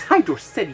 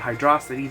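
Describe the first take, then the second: First: The name is said as 'Hydro' plus 'City'. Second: The name is blended into one word. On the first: The speaker calls it right. "it's Hydro City, you dumbasses" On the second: The speaker calls it wrong. "almost called it Hydrocity, the wrong pronunciation"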